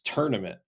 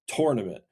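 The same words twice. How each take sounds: First: The first syllable is said like 'turn'. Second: The first syllable is said like 'tour'. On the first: "here in the Midwest, it's tournament" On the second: "it is literally T O U R, like it's tournament"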